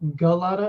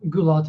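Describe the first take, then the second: First: The surname is said the common American way. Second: The surname is said the original family way. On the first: This is how people in America usually say it. "which is what you hear in America a lot" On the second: This is how the family name is properly said. "which is the correct pronunciation"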